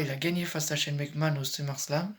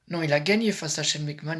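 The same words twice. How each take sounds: First: Said in the usual way. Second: Correcting himself, loud, gagné pushed out hard; loud correction. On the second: Real, not acted. Vlogger corrects his own slip about the result, loud. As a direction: snap back the mistake with gagné hit loud. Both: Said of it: "excusez-moi".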